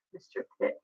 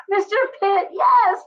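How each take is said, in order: First: Soft unvoiced Mister Pitt; whispered. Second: High, loud, drawn-out Mister Pitt; Seinfeld impression. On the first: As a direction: breathe it under your breath. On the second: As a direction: belt out the name like the sitcom. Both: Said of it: "that was it from Seinfeld".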